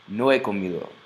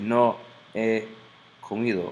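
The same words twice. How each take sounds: First: The words run together smoothly without a break. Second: A glottal stop separates the words. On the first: The speaker calls it right. "It's like very fluid, rhythmic" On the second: The speaker calls it wrong. "it's called a glottal stop"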